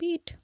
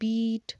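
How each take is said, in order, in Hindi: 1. स्वर छोटा और सादा है। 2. स्वर खिंचा हुआ लंबा है। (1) "हम आराम से बोलते हैं बीट" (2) "बीट को भी ऐसे नहीं बोलते"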